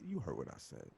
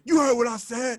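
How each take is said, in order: First: It is said calmly and quietly. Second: It is yelled loudly.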